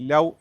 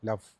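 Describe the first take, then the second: First: The final consonant is a rounded w-like sound. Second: The final consonant is a clear v sound. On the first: The speaker calls it wrong. "ലവ് എന്നാണ് പറയാറുള്ളത്. അതല്ല" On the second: The speaker calls it right. "ഇത് ഒരു തരം വ് സൗണ്ടാണ്"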